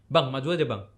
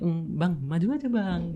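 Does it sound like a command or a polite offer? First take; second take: command; polite offer. First: It sounds like a firm command. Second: It sounds like a gentle, polite offer.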